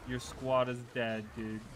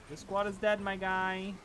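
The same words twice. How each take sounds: First: Said in the usual way. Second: High put-on announcer voice; higher, louder mock callout; man down shout. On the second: Repeating with mock voice.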